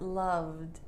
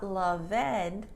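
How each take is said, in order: First: The ending is just a short D sound. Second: The ending is said as an extra syllable. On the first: The speaker calls it right. "just the d sound" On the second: The speaker calls it wrong. "is not"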